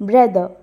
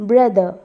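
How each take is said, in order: No difference in how they are said.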